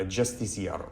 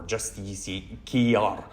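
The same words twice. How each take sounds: First: Justiciar said straight through; first pronunciation attempt. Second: Justiciar drawn out syllable by syllable; slow, broken-up second guess at Justiciar; alternative pronunciation attempt. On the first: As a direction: try Justiciar in one go, unsure of the name. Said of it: "I don't know how they". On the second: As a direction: sound out Justiciar slowly, unsure of it. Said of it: "say his name". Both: Shown as a demonstration.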